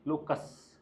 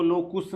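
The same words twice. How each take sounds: First: Said in the usual way. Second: लोकुस with an "oo" in the second syllable; wrong pronunciation of लोकुस. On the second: Shown as a demonstration. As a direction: say लोकुस, rhyming its ending with "puss". (लोकुस, दूसरे अक्षर में उ की मात्रा के साथ) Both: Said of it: "इसको लोकुस नहीं पढ़ेंगे".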